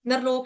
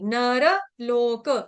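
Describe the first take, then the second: First: The r is half, joined straight onto lok. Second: The r is full, with a vowel after it. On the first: The speaker calls it wrong. "नरलोक नहीं पढ़ेंगे" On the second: The speaker calls it right. "इसको इस तरह से पढ़ेंगे"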